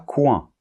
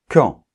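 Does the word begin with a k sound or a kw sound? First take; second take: kw; k. First: It begins with a k followed by w. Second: It begins with a plain k sound. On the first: The speaker calls it wrong. "et pas" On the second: The speaker calls it right. "On doit dire qui, quand"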